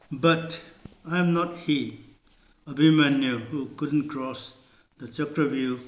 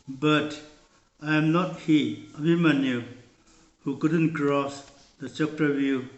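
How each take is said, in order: Both takes have the same delivery.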